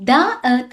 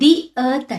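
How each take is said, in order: First: 'The' is said with a short 'uh' vowel. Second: 'The' is said with a long 'ee' vowel. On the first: The speaker calls it wrong. "ద earth అని అనం మనము" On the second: The speaker calls it right. "ది earth అంటాం"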